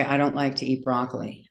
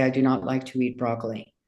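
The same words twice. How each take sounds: First: Said in the usual way. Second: "do not" kept apart, "not" pressed a little harder; stress on NOT. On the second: Shown as a demonstration. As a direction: spell out "do not" as written, leaning on "not". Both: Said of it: "I have to say".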